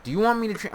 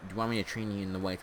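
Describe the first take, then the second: First: Acted question in a raised voice; high-pitched mock repeat. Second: Said in the usual way.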